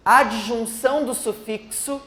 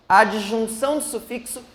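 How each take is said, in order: Both takes have the same delivery.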